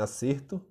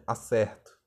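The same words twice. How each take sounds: First: "Acerto" with the noun's closed stressed e. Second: "Acerto" with the verb's open stressed e. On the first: Teacher contrasting two homographs, closed E in "Acerto". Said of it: "a entonação é diferente". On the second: Teacher contrasting two homographs, open E in "Acerto". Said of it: "ele fica mais aberto". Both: Shown as a demonstration.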